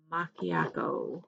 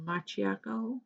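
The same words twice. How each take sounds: First: Macchiato with a hard k, "mah-kee-AH-toe"; tentative macchiato, pronounced mah-kee-AH-toe; k pronunciation. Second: Macchiato with a ch sound, "mah-chee-AH-toe"; questioning macchiato, pronounced mah-chee-AH-toe; ch pronunciation. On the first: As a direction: say the cch in macchiato as a k sound. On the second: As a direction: say the cch in macchiato as in "match". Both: Shown as a demonstration. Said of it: "I think it's macchiato, right?".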